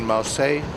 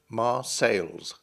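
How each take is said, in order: First: The name ends without an s sound. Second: The name ends with an s sound. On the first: This is the modern French form. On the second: This is the old English form.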